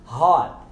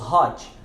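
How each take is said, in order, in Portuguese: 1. O T final fica mudo. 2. O T final é claramente pronunciado. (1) "nós simplesmente silenciamos o T" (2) "Não falamos hot"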